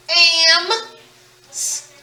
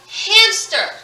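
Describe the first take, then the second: First: "ham-ster" stretched into separate sounds with gaps; sounded out. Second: Said in the usual way. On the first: Shown as a demonstration. Teacher circling each sound in hamster, sounded out bit by bit. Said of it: "Circling each sound". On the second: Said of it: "this word is hamster".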